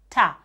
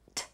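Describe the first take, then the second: First: The consonant is followed by an added vowel. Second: The consonant is said alone with no vowel. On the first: The speaker calls it wrong. "don't add the a" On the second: The speaker calls it right. "It's t"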